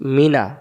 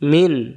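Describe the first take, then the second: First: The word ends with an open 'a' vowel. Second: The word ends cleanly on the 'n' sound. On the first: The reading continues without stopping here. "এখন মিনা দম ফেলার জায়গাতে নাই।" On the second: The reading stops at this word. "দম ফেলার জায়গা দেই আমি... তাহলে এখানে উচ্চারণ হবে মিন"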